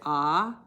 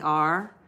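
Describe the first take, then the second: First: The letter is said as ah, without R. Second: The letter is said with a strong R sound. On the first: This is how people in England say it. "in England they said ah" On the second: This is how people in Canada say it. "We say R"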